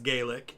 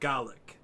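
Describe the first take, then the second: First: The word is given its Irish pronunciation. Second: The word is given its Scottish pronunciation. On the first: This is how the word is said in Ireland. "in Ireland it's pronounced Gaelic" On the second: This is how the word is said in Scotland. "in Scotland it's pronounced Gaelic"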